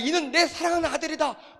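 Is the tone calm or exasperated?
exasperated. It is said in an exasperated, scolding tone. The listeners are being scolded for not listening. The speaker calls it right. "이런 뉘앙스예요. 제발 좀 들어 쳐먹으라고"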